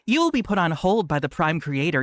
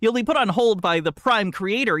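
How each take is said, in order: First: It is read in an assumed character voice. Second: It is read in the speaker's ordinary voice.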